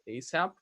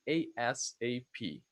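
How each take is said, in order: First: It is said as a single word. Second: Each letter is said separately. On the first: "as a word with a, with an S sound" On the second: "or letter by letter"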